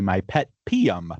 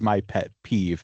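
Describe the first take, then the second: First: The last word ends in an M sound. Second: The last word ends in a V sound. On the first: The spelling is read as plain American English. The speaker calls it wrong. "if you were just speaking American English, you would look at this and say" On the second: The spelling is read as Irish. The speaker calls it right. "I would know that this is saying is my pet peeve"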